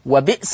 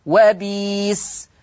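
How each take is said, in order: First: وبئس with a glottal catch after "bi"; brief stop on the hamza in وبئس; written hamza form. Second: وبيس with a long "ee" and no glottal catch; Warsh substitution. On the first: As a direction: say وبئس as "wa-bi'-sa". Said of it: "وبئس تقرأ وبيس". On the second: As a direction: draw out وبيس slowly as "wa-beees". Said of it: "تقرأ وبيس". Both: Shown as a demonstration.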